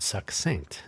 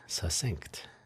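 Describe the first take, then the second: First: The double c is said as 'ks'. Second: The double c is said as a single 's'. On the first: The speaker calls it right. "That is the correct way to say that word" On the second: The speaker calls it wrong. "as if it's an S instead of two C's"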